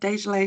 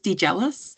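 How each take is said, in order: First: The name does not sound like 'jealous'. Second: The name sounds like 'de-jealous'. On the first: The name as its owner says it. "Dejle is my name" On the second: A first guess from the spelling. "pronunciation that crossed your mind when you saw my name"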